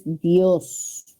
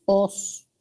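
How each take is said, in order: First: Dios as one syllable, the diphthong kept; whole tonic syllable. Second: Os alone, without the di sound; wrongly cut syllable. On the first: Teacher correcting students on the tonic syllable, Dios in one beat. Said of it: "La sílaba tónica es Dios". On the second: Teacher warning students off a wrong tonic syllable, a bare os. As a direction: give only os, as the mistaken syllable. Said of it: "No es os". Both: Shown as a demonstration.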